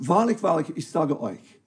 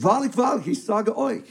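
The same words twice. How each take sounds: First: Wahrlich, wahrlich stressed with a falling tune, ich sage euch softer; preacher reading Jesus' words aloud, solemn; solemn emphasis. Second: Preacher repeating the solemn opening for the congregation; same solemn emphasis. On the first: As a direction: read it like a solemn pronouncement. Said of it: "ihr fangt an mit diesem Statement". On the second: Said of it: "Mit der gleichen Betonung". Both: Shown as a demonstration.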